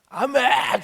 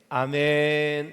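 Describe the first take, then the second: First: It is shouted loudly. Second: It is said at a moderate volume.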